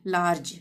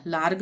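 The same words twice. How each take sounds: First: लार्ज ending in a j sound; correct soft g. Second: लार्ग ending in a hard g; wrong hard g. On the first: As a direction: say large as लार्ज, final g like j. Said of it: "ज का उच्चारण होगा". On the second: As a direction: misread large as लार्ग, "larg". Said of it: "लार्ग नहीं पढ़ेंगे". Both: Shown as a demonstration.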